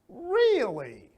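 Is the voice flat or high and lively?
high. The voice goes up high and lively. The listener is genuinely interested. The speaker calls it right. "See, up and high"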